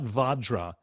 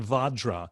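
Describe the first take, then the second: First: The vowels are open, like 'ah'. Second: The same.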